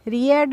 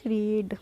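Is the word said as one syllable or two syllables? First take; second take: two syllables; one syllable. First: The vowels are split into two syllables. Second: The vowels merge into one long syllable. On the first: The speaker calls it wrong. "रीएड नहीं बोलोगे" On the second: The speaker calls it right. "क्या बोलोगे? रीड"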